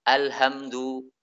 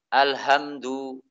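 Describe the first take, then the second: No difference in how they are said.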